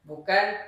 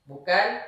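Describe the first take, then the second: The two takes are said the same way.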